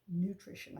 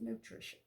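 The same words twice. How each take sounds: First: Said in the usual way. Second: NUTRITION cut short to "noo-TRISH", final syllable missing; tongue-tied slip. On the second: Real, not acted. Home cook stumbling while praising the dish, NUTRITION clipped to "nutrish". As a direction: fumble NUTRITION, stopping on a held "sh" before the "-un". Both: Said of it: "I can't talk".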